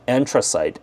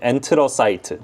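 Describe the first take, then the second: First: It is said with an English pronunciation. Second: It is said with a Korean pronunciation. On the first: "whatever you pronounce it" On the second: "that's the Korean way you pronounce it"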